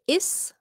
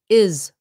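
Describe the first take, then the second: First: The word ends with a hissing s sound. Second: The word ends with a buzzing z sound. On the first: The speaker calls it wrong. "You don't say is" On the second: The speaker calls it right. "should be a Z. ... It should be is"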